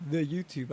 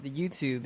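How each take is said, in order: First: Lightly voiced old person. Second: Said in the usual way. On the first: Shown as a demonstration. Friend mocking how the elderly name websites, lightly voiced old person. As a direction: say it with a hint of an old-timer, fairly soft. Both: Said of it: "I just say like an old person".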